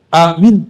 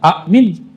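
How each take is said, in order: First: The vowels in the word are long. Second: The vowels in the word are short. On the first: It is a name. "A-nya panjang, min-nya panjang" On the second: It is a command asking for acceptance. "Kalau kata perintah"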